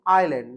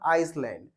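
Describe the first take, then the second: First: The word is said with no s sound. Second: The word is said with an s sound. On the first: The speaker calls it right. "यहाँ पे हमारा एस silent होता है" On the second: The speaker calls it wrong. "कुछ लोग इसे आइसलैंड बोलते हैं"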